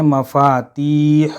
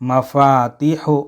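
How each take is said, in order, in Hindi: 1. लंबे स्वर को खींचा जाता है। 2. लंबे स्वर को छोटा कर दिया जाता है।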